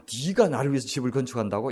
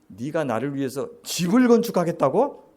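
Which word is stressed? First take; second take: 네가; 집을. First: The stress falls on the word 네가. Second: The stress falls on the word 집을. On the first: Doubting that someone like you could do it. "네가라고 할 수 있죠" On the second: Doubting that God needs a house at all. "악센트가 집에 있어요"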